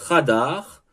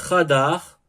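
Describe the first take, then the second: No difference in how they are said.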